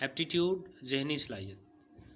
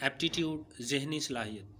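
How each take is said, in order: Both takes have the same delivery.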